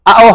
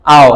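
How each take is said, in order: First: আও broken into আ, ও; separated vowels. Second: আও as one smooth syllable; joined vowels. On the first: Teacher ruling out a reading, আও split in two. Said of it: "আও হবে না". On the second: Teacher giving the answer, আও joined up. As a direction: glide from আ to ও in আও. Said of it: "কি হবে?". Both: Shown as a demonstration.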